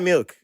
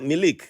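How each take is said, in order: First: The word is said as one syllable. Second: The word is said as two syllables.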